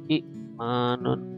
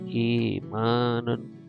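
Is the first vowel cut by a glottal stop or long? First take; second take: glottal stop; long. First: A glottal stop closes the short first vowel. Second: The first vowel is held long, no stop. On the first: This is the original written form. "asli tulisannya itu jadi hamzah kasrah bertemu dengan hamzah sukun, bacanya" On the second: This is how it is actually read. "tapi dibacanya"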